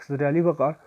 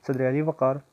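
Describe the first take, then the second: The two takes are said the same way.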